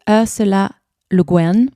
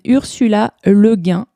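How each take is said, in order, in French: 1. Le nom est prononcé avec un accent américain. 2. Le nom est prononcé avec un accent français. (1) "En américain, puisqu'elle est américaine, vous diriez" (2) "je crois que ça se prononce comme ça en français"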